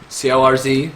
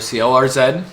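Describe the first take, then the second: First: The final letter is said the American way. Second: The final letter is said the Canadian way.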